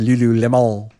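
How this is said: The name is said with a French-style pronunciation. "It's probably supposed to be French. It's supposed to be Lululemon"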